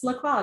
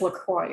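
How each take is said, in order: First: The name is said in a posh, fancy manner. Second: The name is said in a plain, ordinary manner. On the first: It is a personal, affected way of saying the name. The speaker calls it wrong. "I always say it like La Croix, like it's La Croix, darling" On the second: It is how the brand itself says the name. The speaker calls it right. "I think it's La Croix is how they pronounce it"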